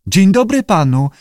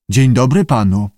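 First: High-pitched lizard greeting; high creature echo; lizard parroting. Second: Greeting modelled for a pupil; teacher's model greeting; keeper's prompt. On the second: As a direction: say it firmly in your own pitch. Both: A narrator's reading.

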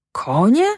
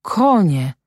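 First: "Konie" rising high as a puzzled question; murmured question. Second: "Konie" with a falling end, no question lift; puzzled repetition. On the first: Dazed farmhand echoes "Konie" back, rising in puzzlement. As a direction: lift the end of "Konie", not grasping it. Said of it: "mruknął Maciek". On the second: Farmhand repeats "Konie" to himself, falling tone. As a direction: let "Konie" rise then drop, sinking in. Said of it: "jeszcze raz powtórzył". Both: A narrator's reading.

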